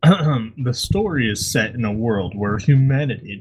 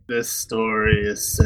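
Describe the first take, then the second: First: It is read in a deep, theatrical voice. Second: It is read in a bored, half-hearted voice.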